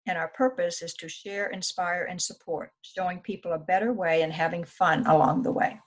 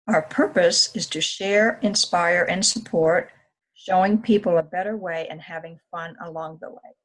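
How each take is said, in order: First: It is read at a normal pace. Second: It is read slowly and loudly.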